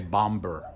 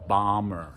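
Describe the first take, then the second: First: A b sound is heard after the m. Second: No b sound is heard after the m. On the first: The speaker calls it wrong. "We don't say bomber" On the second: The speaker calls it right. "We don't pronounce the B"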